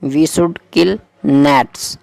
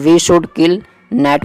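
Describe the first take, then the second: First: Gnats said nets with silent g and a clear final s; We should kill gnats, very slowly, s sounded. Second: Net in We should kill net said with no final s; We should kill net, bare net with silent g; without the s. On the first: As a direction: finish gnats on a crisp s. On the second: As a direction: stop net dead on the t, no s added. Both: Shown as a demonstration. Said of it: "में लगा दो आप एस".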